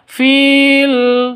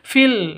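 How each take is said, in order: First: The vowel is drawn out long. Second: The vowel is short and runs straight on. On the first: The speaker calls it wrong. "Bukan dibaca fil, salah" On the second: The speaker calls it right. "langsung masuk seperti itu"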